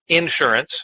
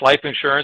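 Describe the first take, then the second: First: Southern style, stress on the first syllable. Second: The stress is on the second syllable.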